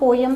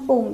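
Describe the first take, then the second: First: It is said with two syllables, British style. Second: It is said as one syllable, American style. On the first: "पोयम जो है that is your British accent" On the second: "पोम is your American accent"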